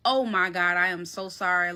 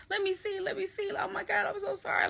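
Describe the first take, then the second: First: Low-pitched, stunned apology; retold shock. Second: High-pitched, softer panicky pleading; retold panic. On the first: Apologizing to the bitten housemate, low and stunned. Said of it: "I was in complete shock". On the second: Checking the bleeding housemate's leg, high mock panic. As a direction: fret over the injury in a high, small voice. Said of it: "Like, I'm panicking".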